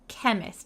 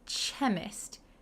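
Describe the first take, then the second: First: It starts with a k sound. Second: It starts with a ch sound. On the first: The speaker calls it right. "We say k, k chemist, like a K" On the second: The speaker calls it wrong. "we don't say chemist"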